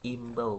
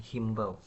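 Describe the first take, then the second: First: The word starts directly with a vowel. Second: The word starts with an h sound. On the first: The speaker calls it right. "yang tidak memakai hak" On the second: The speaker calls it wrong. "bukan pakai hak"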